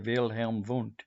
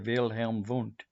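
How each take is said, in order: First: The name is said with a German accent. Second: The name is said with a German accent.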